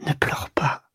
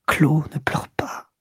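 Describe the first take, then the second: First: Softer, breathy whisper of comfort. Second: Slow whispered plea with a catch of crying; tearful whisper. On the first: Duroy comforts his crying mistress Clo in a soft whisper. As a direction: hush her gently, no voice at all. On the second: Duroy begs his mistress Clo to stop crying, tearfully whispering. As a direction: beg her through your own tears, barely voiced. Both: Acted. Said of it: "Il murmura".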